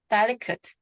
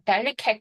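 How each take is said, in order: First: The stress falls on the first syllable. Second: The stress falls on the last syllable. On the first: The speaker calls it right. "델의 강세가 있으니까 뒤에 있는 여기는 강세가 안 들어가야 되겠죠" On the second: The speaker calls it wrong. "delicate 하지 마시고"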